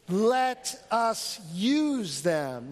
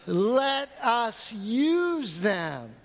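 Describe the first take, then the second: First: It is said plainly, without special force. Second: It is said forcefully, with conviction.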